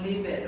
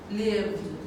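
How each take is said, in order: First: The ending is said as an extra syllable. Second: The ending is a short d sound, no syllable. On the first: The speaker calls it wrong. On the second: The speaker calls it right.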